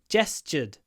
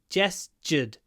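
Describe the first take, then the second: Both takes have the same delivery.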